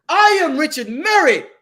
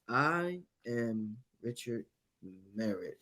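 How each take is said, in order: First: It is said with lively, acted expression. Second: It is said flatly, like reading aloud.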